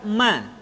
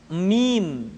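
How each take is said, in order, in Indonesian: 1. Ini adalah suku kata pendek yang berakhir dengan vokal. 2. Ini adalah suku kata penuh yang berakhir dengan m.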